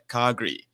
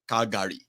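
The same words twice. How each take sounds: First: It is the relaxed local pronunciation. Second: It is a careful, literal pronunciation. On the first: People living there say it this way. "We call it uh" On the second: An outsider would say it this way. "I just pronounce it the way it is written"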